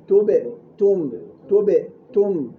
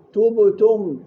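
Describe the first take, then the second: First: تبتم slow, with a short kasra-like ب; slow correct form. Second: تبتم with a rounded u on the ب; wrong, louder. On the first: Teacher giving the correction, slow. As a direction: stretch تبتم slowly the right way. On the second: Teacher imitating the error, louder. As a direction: hit تبتم as the mistaken form. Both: Shown as a demonstration. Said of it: "مش تبتم".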